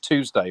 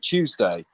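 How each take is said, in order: First: The word is said in an American accent. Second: The word is said in a British accent. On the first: "instead of Tuesday" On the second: "we say Tuesday"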